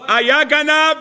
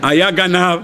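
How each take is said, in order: First: היה גנב said high and forceful; היה גנב driven home to the congregation; emphatic. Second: Said in the usual way. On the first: Shown as a demonstration. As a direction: preach היה גנב out hard. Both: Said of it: "restated with force".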